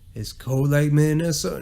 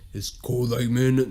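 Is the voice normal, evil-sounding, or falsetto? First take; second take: normal; evil-sounding. First: It is said in a normal voice. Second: It is said in an evil-sounding voice.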